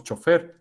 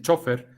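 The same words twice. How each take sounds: First: Chofer said as cho-FER, rising at the end; French-style final stress. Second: Chofer said as CHO-fer, stressed at the front; Spain's stress. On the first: Lecturer showing how we say it, chofer stressed on FER. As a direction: land on the last syllable of chofer. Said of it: "con la pronunciación francesa". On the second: Lecturer quoting how Spain says it, chofer stressed on CHO. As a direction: hit the first syllable of chofer. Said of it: "en España dicen chofer". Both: Shown as a demonstration.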